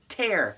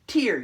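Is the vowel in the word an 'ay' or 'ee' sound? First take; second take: ay; ee. First: The vowel is a long A sound. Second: The vowel is a long E sound. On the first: To rip something apart. "long A" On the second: Water that comes from the eyes. "Long E"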